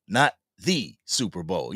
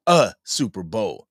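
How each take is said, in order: First: Not the Super Bowl, with the word the pressed; stress on the. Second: A Super Bowl, with a clearly stressed A. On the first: Correcting the chat, stress on the. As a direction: punch the. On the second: Telling chat he only hopes, stress on A. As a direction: lean on the little word A. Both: Shown as a demonstration.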